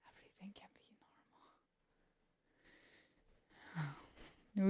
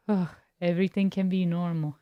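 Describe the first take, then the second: First: Breathy whisper, no voice at all. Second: Said in the usual way. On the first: Acted. Streamer repeating herself to chat in a whisper. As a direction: hush it like a secret.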